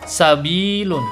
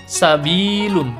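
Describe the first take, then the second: First: The vowel is held long, for two beats. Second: The same.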